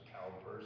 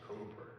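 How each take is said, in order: First: The first vowel rhymes with 'cow'. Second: The first vowel rhymes with 'coo'. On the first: It follows the spelling. The speaker calls it wrong. "so you want to pronounce it Cowper" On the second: It is how the poet said his own name. The speaker calls it right. "he pronounced it Cooper"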